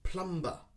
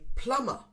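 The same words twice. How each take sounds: First: The B sound is pronounced in the middle. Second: The B sound is left silent. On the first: The speaker calls it wrong. "Many people say plumber" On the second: The speaker calls it right. "We ignore the B sound"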